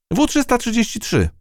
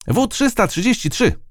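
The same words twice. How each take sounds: First: High ant voice, at an ordinary volume; correcting. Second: Mild shout. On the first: Ant corrects mouse on its name, high-voiced. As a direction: set the number straight, pitched high. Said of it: "poprawiła ją mrówka". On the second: Captured ant shouts out its number, high and moderate. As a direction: report your number like a little soldier. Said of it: "krzyknęła". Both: A narrator's reading.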